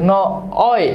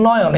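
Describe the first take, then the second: First: নয়ন broken into "ন", pause, "অয়"; syllable-split pronunciation. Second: Said in the usual way. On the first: Shown as a demonstration. Teacher asks what sounds inside নয়ন, syllable-split pronunciation. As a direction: separate "অয়" clearly from "ন". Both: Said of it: "ভিতরে কি উচ্চারিত হচ্ছে".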